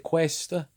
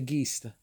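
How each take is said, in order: First: It is said with a standard Italian pronunciation. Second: It is said with a clipped Italian American pronunciation. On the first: This is how people in Italy say it. "like you would say" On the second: This is how Italian Americans say it. "we say"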